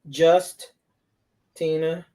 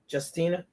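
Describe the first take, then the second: First: The name splits into two words with a break. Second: The name flows as one smooth word. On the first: It sounds like the word just before the name Tina. "It didn't flow off her mouth. ... it was just and then Tina" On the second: It is a single first name. "her name is Justina"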